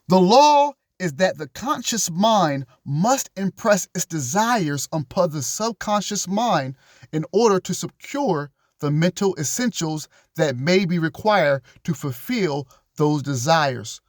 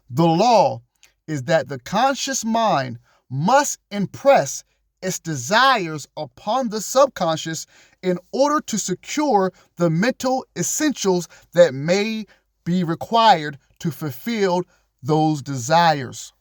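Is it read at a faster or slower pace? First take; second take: faster; slower. First: It is read at a faster pace. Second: It is read at a slower pace.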